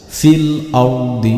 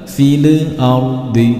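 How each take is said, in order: First: The l sound is plain and clear, without extras. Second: The l sound is bounced with a small echo. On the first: The speaker calls it right. "harus jelas" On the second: The speaker calls it wrong. "Contoh dipantulkan"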